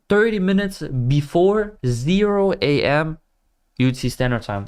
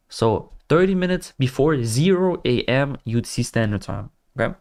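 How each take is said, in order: First: Robot voice. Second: Said in the usual way. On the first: Shown as a demonstration. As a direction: spell it out like a robot. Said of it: "like a robot". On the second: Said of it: "The way why I just said it like that".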